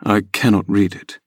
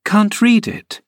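First: Lightly lowered rough lad voice; gruff farm lad. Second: Put-on much higher girlish cry on read it; incredulous young Catherine; surprised cry. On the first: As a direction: stress on cannot, flat and gruff. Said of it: "he answered". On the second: Catherine reacting to Hareton, surprised high cry. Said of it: "cried Catherine". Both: A narrator's reading.

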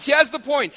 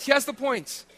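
First: Emphatic. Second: Said in the usual way. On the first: Real, not acted. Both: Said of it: "listen, this is the point".

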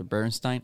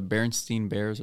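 First: Berenstein with "stine" at the end. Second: Berenstein with "steen" at the end. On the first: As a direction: say the last syllable of Berenstein with an "eye" sound. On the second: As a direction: say the last syllable of Berenstein with a long ee. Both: Shown as a demonstration. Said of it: "I think it's Berenstein".

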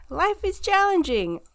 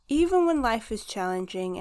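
First: Higher, louder, pushed hard; emphatic. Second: Said in the usual way. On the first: Real, not acted. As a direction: lean hard into challenging. Laughing emphatic repeat, much louder.

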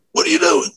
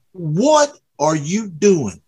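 First: Imitating a hysterical cop, pitched much higher. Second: Said in the usual way. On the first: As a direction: squeal it out like a panicked cop. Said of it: "Like, like he was hysterical". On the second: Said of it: "And he's mad".

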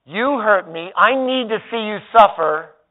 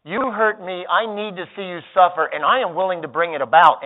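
First: Higher, louder wounded demand; hurt and aching for payback; acted wounded grudge; passive anger voice. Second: Louder, higher vengeful threat; hammed-up vengeful threat; acting out active anger. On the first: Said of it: "Passive anger looks and sounds like this". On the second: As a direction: threaten to get even. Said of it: "active anger actually is this". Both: Shown as a demonstration.

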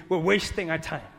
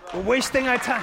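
First: Said in the usual way. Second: Higher, louder, punching wasting; emphatic repeat. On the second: Acted. Preacher repeating warning, louder emphatic take. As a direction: drive the line home the second time. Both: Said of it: "repeated louder".

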